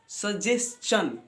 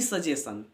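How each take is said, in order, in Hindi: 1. अंत की आवाज़ 'chun' जैसी होती है। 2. अंत की आवाज़ सादे 'shun' जैसी होती है। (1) "ये चन के रूप में आता है" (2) "न कि सजेशन"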